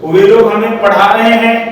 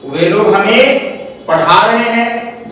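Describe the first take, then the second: First: Said in the usual way. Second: Slow, drawn-out example sentence with a pause; slow dictation. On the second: Shown as a demonstration. Teacher dictating an example sentence to the class, slow and spaced out. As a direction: dictate it slowly in separate chunks.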